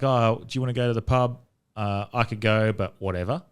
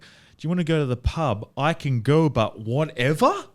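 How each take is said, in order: First: It is said in a relaxed, casual tone. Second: It is said in an irritated, hostile tone.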